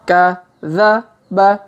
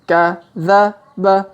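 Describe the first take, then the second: The two takes are said the same way.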